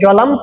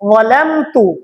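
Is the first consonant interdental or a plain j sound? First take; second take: plain j; interdental. First: The first consonant is a plain j sound. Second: The first consonant has the tongue between the teeth. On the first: The speaker calls it wrong. "অনেকজন জলামতু বলে থাকি" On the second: The speaker calls it right. "উচ্চারণ করতে হবে জিভা বের করে"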